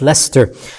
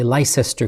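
First: The name is not sounded out as spelled. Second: The name is sounded out as it is spelled. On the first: The speaker calls it right. "but it is pronounced Leicester" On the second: The speaker calls it wrong. "I would say Leicester because that's how it's spelt"

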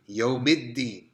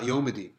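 First: The d sound is held and doubled. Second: The d sound is short, not doubled. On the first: The speaker calls it right. "Double it up" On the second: The speaker calls it wrong. "Not Yawmiddin"

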